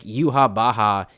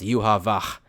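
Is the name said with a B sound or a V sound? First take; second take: B sound; V sound. First: The name is said with a B sound. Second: The name is said with a V sound. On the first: It copies the Japanese katakana reading. "is just how they pronounce" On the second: It follows the German spelling of the name. "because Japanese doesn't have a V sound"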